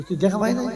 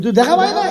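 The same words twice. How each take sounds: First: Said in the usual way. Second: Higher, louder repeated question; insistent repeat. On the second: Retold or imitated. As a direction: push the question again, louder. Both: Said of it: "ওই".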